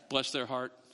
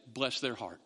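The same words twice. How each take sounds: First: Said in the usual way. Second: Low, soft southern bless their heart; mock southern gossip. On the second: Mimicking a southern gossip to the congregation, low and soft. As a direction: drawl it like a sweet-tongued southern gossip. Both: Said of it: "The southern way to do that is".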